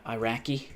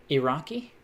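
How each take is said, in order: First: "Iraqi" said eye-RACK-ee; eye-RACK-ee pronunciation. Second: "Iraqi" said ih-RAH-kee; ih-RAH-kee pronunciation. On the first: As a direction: say "Iraqi" with a long I and flat A in RACK. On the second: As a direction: say "Iraqi" with short I and open AH. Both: Shown as a demonstration. Tries two pronunciations of Iraqi.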